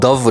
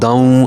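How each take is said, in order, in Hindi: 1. यह शब्द 'n' की ध्वनि के बिना खत्म होता है। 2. यह शब्द जुड़ी हुई 'n' की ध्वनि के साथ खत्म होता है। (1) "दव नहीं पढ़ेंगे" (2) "बल्कि हम पढ़ेंगे दाल दो ज़बर वाव"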